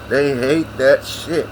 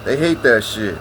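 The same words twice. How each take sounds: First: Slow, stretched "They hate that shit"; slow drawn-out repeat. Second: Said in the usual way. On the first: Shown as a demonstration. Grandson repeats the line to listeners, slowly drawn out. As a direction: drag out every word of "They hate that shit".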